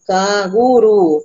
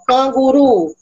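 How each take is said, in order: First: Canguru split slowly into can-gu-ru; syllable by syllable. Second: Said in the usual way. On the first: Shown as a demonstration. Teacher to colleague, showing syllable splitting of canguru. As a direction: spell out canguru in beats. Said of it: "tem três sílabas". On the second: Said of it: "aí eu coloco".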